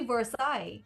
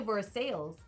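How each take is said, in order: First: It is pronounced the original French way. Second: It is pronounced as it is spelled. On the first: This is the correct pronunciation. The speaker calls it right. "but it's really Versailles" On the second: This is how locals usually say it. The speaker calls it wrong. "we say Versailles"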